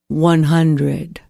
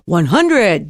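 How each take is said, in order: First: It is spoken slowly in a low pitch. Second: It is spoken quickly in a high pitch. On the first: It helps the mind wind down toward sleep. The speaker calls it right. "saying them to yourself in a slow pace and low pitch" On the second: It keeps the mind busy and awake. The speaker calls it wrong. "You'll never get to sleep like that"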